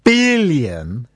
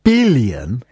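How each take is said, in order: First: The word is said in a dramatic newsreader style. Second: The same.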